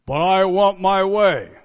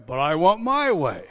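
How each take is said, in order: First: Loud demanding But I want my way; mock selfish spouse, loud. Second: Mock the whine of a spoiled spouse; hammed-up whiny demand; whiny selfish spouse. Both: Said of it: "In a marriage".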